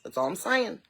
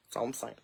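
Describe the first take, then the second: First: Said in the usual way. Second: Lower, much softer aside; low muttered repeat. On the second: Real, not acted. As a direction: mutter it under your breath.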